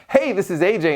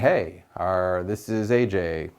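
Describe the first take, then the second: First: It is said warmly, with lots of enthusiasm. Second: It is said flatly, without enthusiasm. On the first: The speaker calls it right. "what's going to be better?" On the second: The speaker calls it wrong. "or are you saying"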